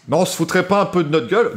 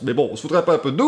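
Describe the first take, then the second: First: Said in the usual way. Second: Quick mock Belgian accent; light Belgian accent, fast and teasing. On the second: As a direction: toss it off in a jokey Belgian accent. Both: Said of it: "Ils sont belges?".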